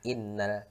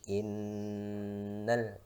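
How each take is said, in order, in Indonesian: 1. Bunyi n-nya pendek, tanpa dengung sengau. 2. Bunyi n-nya ditahan dengan dengung sengau. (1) "bukan innal" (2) "nun tasydid dibaca dengung, jadi didengungkan sedikit ya"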